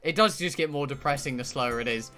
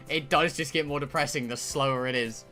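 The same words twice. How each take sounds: The two takes are said the same way.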